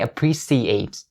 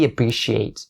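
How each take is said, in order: First: The third syllable has a soft s sound. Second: The third syllable has a sharp sh sound. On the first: The speaker calls it wrong. "Is not going to be the soft s sound. So don't say appreciate" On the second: The speaker calls it right. "make the sh sound really sharp and strong"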